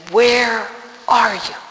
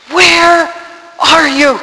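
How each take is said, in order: First: Slow, drawn-out demand to God; retold cry at God. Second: High, loud, desperate call to God; retold crying out. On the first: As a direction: call out to God, stretching each word. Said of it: "I was screaming at God". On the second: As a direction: shout it up to heaven, word by word. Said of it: "I cried out to God".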